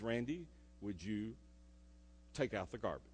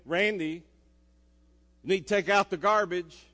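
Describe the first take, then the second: First: A softer, lower mom asking sweetly; mom's gentle ask. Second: A louder, firmer mom reminder. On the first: Mom asking her son to take out the garbage, gently. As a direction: ask it nicely, like a patient mom. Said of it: "Kind of in that voice". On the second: Mom reminding her son again, firmer and louder. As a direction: insist a bit more this time. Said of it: "voice inflection just went up about three decibels". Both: Retold or imitated.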